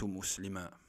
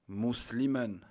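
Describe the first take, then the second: First: The word ends with a long a, no n. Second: The word ends with a short vowel plus n. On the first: The speaker stops at the end of the phrase. "ça aurait été à la fin du mot, j'aurais dit" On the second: The word is in the middle of the sentence. "on n'a pas prononcé le alif. On a prononcé quoi? Juste le tanwin"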